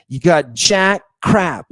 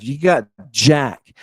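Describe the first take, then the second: First: Jack crap slowed and punched; stress on jack. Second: Said in the usual way. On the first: Shown as a demonstration. Lecturer to class, slow emphatic jack crap. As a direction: lean hard on jack.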